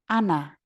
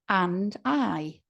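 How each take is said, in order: First: The d is dropped and I becomes ah. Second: Both words are said fully with their strong forms.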